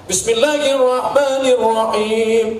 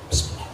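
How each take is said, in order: First: It is said aloud. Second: It is said quietly, under the breath.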